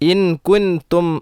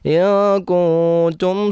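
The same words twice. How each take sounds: First: The n sound is pronounced fully and clearly. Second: The n sound is hidden with nasalization. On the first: The speaker calls it wrong. "എന്നോദിയാൽ തെറ്റാണ്" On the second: The speaker calls it right. "രണ്ട് ഇഖ്ഫ വരുന്നുണ്ട്"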